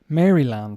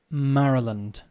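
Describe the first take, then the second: First: The name is said the way it is spelled. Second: The name is not said the way it is spelled. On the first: The speaker calls it wrong. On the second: The speaker calls it right. "Should be Maryland, but it's not"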